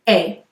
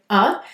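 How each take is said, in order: First: The vowel is a full, long 'ay' sound. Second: The vowel is a short, weak 'uh' sound. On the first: The speaker is exaggerating for emphasis. "saying the schwa vowel clearly as A" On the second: The word is unstressed in normal speech. "we don't stress it in the sentence, so we say uh"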